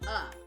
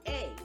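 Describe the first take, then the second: First: The vowel is a weak 'uh' sound. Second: The vowel is a long 'ay' sound. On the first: "when you are reading it in a story, the word is uh" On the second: "It has a long vowel sound, which sounds like A"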